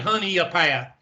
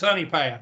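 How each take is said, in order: First: An extra vowel sound joins the two words. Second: The two words follow with no extra sound. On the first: This is how outsiders say it. The speaker calls it wrong. "you don't you don't say Honey a Path" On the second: This is how locals say it. The speaker calls it right. "It's Honey Path, like honey on a biscuit"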